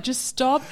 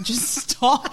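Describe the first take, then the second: First: Lightly imitated Joe pleading; mock exasperated Joe again, higher, half laughing. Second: Imitating Joe, higher, mock pleading; a playful take on a fed-up Joe; mock exasperated Joe. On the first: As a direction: repeat the plea with a laugh nearby. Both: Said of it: "He's like".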